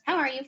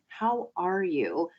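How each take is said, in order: First: It is asked casually, as a routine greeting. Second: It is asked sincerely, with weight.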